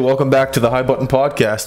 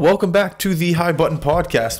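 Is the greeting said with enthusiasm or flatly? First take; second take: flatly; enthusiasm. First: It is said flatly, with little energy. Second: It is said with more energy and enthusiasm.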